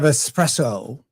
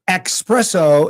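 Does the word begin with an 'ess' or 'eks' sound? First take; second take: ess; eks. First: The word begins with an ess sound. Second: The word begins with an eks sound. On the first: The speaker calls it right. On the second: The speaker calls it wrong.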